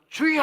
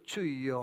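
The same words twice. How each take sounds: First: It is said in an intense, fervent way. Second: It is said in a flat, half-hearted way.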